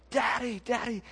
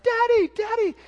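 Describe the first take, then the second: First: Retold child's scream. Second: Very high, loud imitation of a kid; super excited child. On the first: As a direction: imitate a child crying out for his father. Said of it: "my son's just screaming over his shoulder". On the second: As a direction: squeal it like a thrilled little boy. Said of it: "he's super excited".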